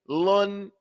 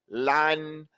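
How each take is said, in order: First: The syllable has a rounded 'u' vowel. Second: The syllable has an open 'a' vowel. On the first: The speaker calls it wrong. "Some of you are saying thaqilun" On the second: The speaker calls it right. "purposely opening up your mouth and saying lan"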